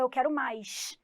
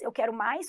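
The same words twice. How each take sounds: First: It is said in a Carioca accent. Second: It is said without a Carioca accent.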